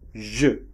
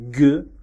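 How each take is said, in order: First: The letter is said with a soft zh sound. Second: The letter is said with a hard g sound. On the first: "Elle peut se prononcer G ou je" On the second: "Elle peut se prononcer G ou je"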